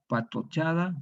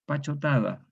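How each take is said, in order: First: Said in the usual way. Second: Pachotada: ch and t swapped, pa-cho-ta-da; popular pachotada. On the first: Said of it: "la forma académica es patochada". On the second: Shown as a demonstration. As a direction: say pachotada, the Chilean way. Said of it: "todos decimos pachotada".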